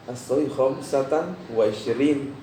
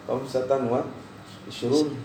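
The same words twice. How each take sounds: First: Slow ISHRIN ending in a long -in; corrected case ending. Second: ISHRUN ending in a long -un; wrong case ending. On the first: Friend correcting his Arabic, ISHRIN said slowly with -in. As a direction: spell out the fix, ISHRIN ending "-reen". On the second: Retelling own mistake to class, ISHRUN said with -un. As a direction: end ISHRUN on "-roon". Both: Retold or imitated. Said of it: "Dia perbaiki bahasa saya adalah akhtota".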